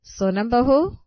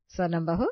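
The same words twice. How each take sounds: First: Much louder, higher call of her name. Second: Said in the usual way. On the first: Acted. Mother-in-law calling sleeping Sonam louder and higher. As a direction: raise your voice to wake her. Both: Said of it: "सास कई बार सोनम को आवाज देती है".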